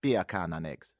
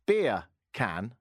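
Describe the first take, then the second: First: "Beer can" run together as Jamaican "bacon", lower; lower-pitched mock Jamaican "bacon and eggs"; Jamaican accent. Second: BEER, pause, CAN as two words; separated words. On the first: Host showing listeners his one Jamaican phrase, mock Jamaican accent. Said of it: "I can say in Jamaican". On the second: Host demonstrating an accent trick to listeners, "Beer can" spelt out separately. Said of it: "if you say that quickly". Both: Shown as a demonstration.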